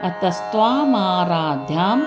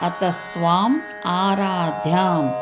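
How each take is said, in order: First: The two words are joined into one. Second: The two words are said separately. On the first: "ಅದನ್ನು ಕೂಡಿಸಿ ಹೇಳಿದಾಗ" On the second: "ಅದನ್ನು ಬಿಡಿಸಿ ಹೇಳಿದಾಗ ಹಾಕಾಗ್ತದೆ"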